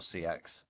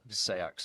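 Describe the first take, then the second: First: It is said in a modern English style. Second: It is said in an Old English style. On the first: "or not" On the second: "go Old English with your pronunciation"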